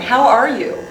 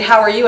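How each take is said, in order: First: It sounds caring and concerned, a sincere question. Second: It sounds quick and casual, a passing greeting. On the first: It is a sincere request for news about someone's health. "different expression, different intonation, the same words take on a different meaning" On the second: It is a greeting that expects no real answer. "they say, how are you? And they keep walking before you could answer"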